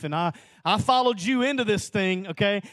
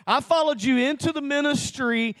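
First: Raised voice, pleading with God; a rising plea that is starting to build; pleading complaint. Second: Higher and louder, protesting to God; the repeated plea reaching its peak; heated plea. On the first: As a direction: press the complaint upward. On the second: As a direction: push it up into an anguished protest. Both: Retold or imitated. Arguing with the Lord, retold.

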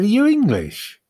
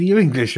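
First: A hint of an American accent, higher; attempted American accent. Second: Said in the usual way. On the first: American driver questions the lost English fan, lightly put-on American accent. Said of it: "I'm not doing the accent". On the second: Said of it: "I'm not doing the accent anymore".

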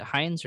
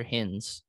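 First: "Hines" with a long i, rhyming with signs; "Hines" as one syllable with a long i; long-i pronunciation. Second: "Hins" with a short i, rhyming with bins; "Hins" as one syllable with a short i; short-i pronunciation. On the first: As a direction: say "Hines" with the vowel of "eye". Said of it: "Do you guys pronounce it Hines?". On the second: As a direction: say "Hins" with the vowel of "in". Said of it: "Is it Hines or Hins?". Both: Shown as a demonstration.

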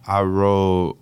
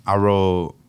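The two takes are said the same way.

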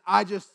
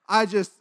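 Both takes have the same delivery.

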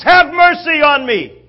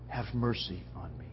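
First: High, very loud desperate plea; top of his lungs. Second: Very soft, low begging; humble quiet plea. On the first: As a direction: yell for mercy over the crowd's noise. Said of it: "begins at the top of his lungs". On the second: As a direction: plead gently, barely audible. Quiet take of the beggar's plea. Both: Acted.

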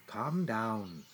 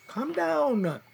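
First: A hushed, much softer self-soothing; calming himself quietly. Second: Higher, strained plea to himself; panicky self-talk. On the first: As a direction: soothe yourself under your breath. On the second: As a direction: try to calm down but the panic pushes up. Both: Acted.

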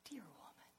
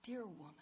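First: Soft loving whisper; Jesus whispering with great love; tender whisper. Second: Tender. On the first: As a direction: breathe it like a lover's endearment. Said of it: "the tone in his voice". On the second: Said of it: "the tone in his voice when he said". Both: Retold or imitated.

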